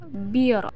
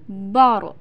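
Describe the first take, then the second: First: "bir" with a light, thin r; thin, spread "bir". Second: "bor" with a heavy, rounded r; full, thick "bor"; thickened r. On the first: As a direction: keep the r of "bir" light after a narrow i. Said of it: "maka suaranya terdengar tipis". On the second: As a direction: darken the vowel and r of "bor". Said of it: "maka suaranya terdengar menebal". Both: Shown as a demonstration.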